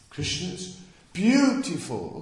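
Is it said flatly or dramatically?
dramatically. It is said with dramatic feeling.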